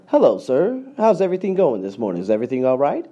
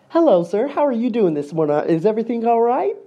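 First: It is said without a smile. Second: It is said with a smile.

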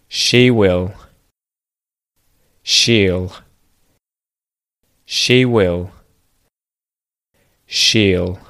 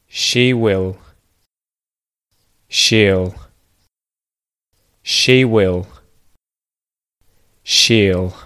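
The two takes are said the same way.

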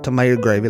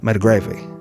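First: All three syllables of the first word are said. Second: The first word is cut to two quick syllables. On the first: "like I just did. I did that for the convenience of everybody listening" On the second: "If you really say it fast, like folks from my family"

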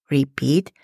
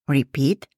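No difference in how they are said.

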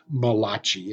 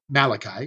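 First: The name is said as spelled, sounding Italian. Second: The name is said the usual English way.

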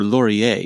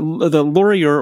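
First: The name is said in a fancy French way. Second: The name is said in a plain English way.

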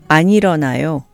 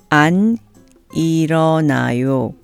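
First: It is said at a natural speed. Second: It is said slowly and carefully. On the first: "and then at a more natural speed" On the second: "I'll say the negative sentence slowly first"

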